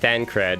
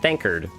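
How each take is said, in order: First: The second syllable sounds like 'cred'. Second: The second syllable sounds like 'kard'. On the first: This is the name as titled. "you title it Thancred" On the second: This is a deliberately bad pronunciation of the name. "the worst pronunciation of characters' names"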